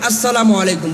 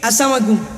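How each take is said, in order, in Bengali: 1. সালামটি যত্ন সহকারে ও সুন্দরভাবে বলা হয়েছে। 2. সালামটি অযত্নে বলা হয়েছে, স্পষ্ট উচ্চারণ ছাড়া। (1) "সালাম দিবেন তো সুন্দরভাবে দিবেন" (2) "অনেকে দেখি আসসালামু আলাইকুম এভাবে বলে, এটা করবেন না।"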